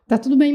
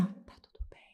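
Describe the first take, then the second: First: Said in the usual way. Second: Breathless voiceless whisper, barely there. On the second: Retold or imitated. To her husband, unable to breathe, a faint whisper. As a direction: mouth the words with no voice, like you cannot breathe. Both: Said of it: "eu tentava sussurrar".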